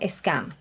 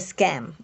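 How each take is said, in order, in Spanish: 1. La palabra se dice con acento británico. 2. La palabra se dice con acento estadounidense. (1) "dependiendo de si lo pronuncias en el inglés británico" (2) "o estadounidense"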